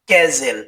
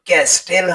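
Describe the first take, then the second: First: The t sound is silent in the middle. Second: The t sound is pronounced in the middle. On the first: The speaker calls it right. "এর উচ্চারণ হবে" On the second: The speaker calls it wrong. "হবে না"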